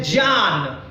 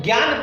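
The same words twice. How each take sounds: First: ज्ञान said as jnyaan, starting with j and no g; correct pronunciation. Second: ज्ञान said the usual way, as gyaan with a g; common pronunciation. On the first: Teacher showing students the correct j sound in ज्ञान. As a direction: give ज्ञान a j sound at the start, not gyaan. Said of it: "लेकिन actually पढ़ने का उच्चारण क्या है?". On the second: Teacher showing students the usual gyaan reading of ज्ञान. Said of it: "हम लोग पढ़ देते हैं ज्ञान". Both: Shown as a demonstration.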